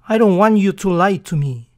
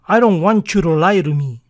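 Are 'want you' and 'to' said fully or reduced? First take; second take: fully; reduced. First: Each word is pronounced fully and separately. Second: 'Want you' blends and 'to' sounds like 'ru'.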